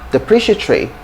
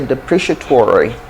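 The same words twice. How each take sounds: First: It is said in a British accent. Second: It is said in an American accent. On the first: "In British English" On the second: "In American English, you'd likely hear"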